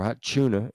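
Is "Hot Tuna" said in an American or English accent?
English. It is said in an English accent.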